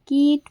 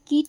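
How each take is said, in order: First: The i vowel is drawn out longer. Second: The i vowel is short and clipped. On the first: The speaker calls it right. "কীট পড়ব" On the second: The speaker calls it wrong. "কীট না পড়ে"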